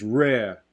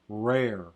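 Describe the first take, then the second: First: The final r is dropped entirely. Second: The r is pulled back in a Southern way. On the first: "non-rhotic, where it becomes rare" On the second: "a Texas or a Southern r"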